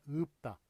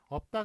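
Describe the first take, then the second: First: The first vowel is raised, close to 'eu'. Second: The first vowel is an ordinary open 'eo'. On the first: The speaker calls it right. "의의 위치에 가깝게 그렇게 발음을 하래요" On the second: The speaker calls it wrong. "없다가 아니라"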